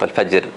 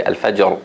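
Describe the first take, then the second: First: Al-fajr with a light, thin final r; wrong soft ra. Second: Al-fajr with a heavy final r; strong ra. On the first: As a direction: show the mistake, al-fajr ending on a soft r. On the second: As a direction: end al-fajr on a full, strong ra. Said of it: "it's supposed to be strong". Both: Shown as a demonstration.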